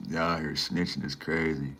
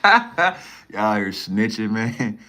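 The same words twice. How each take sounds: First: Said in the usual way. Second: Laughing through the words, slow and loud; amused drawn-out laugh-talk. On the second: Real, not acted. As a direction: crack up while saying it. Laughing at chat calling him snitch.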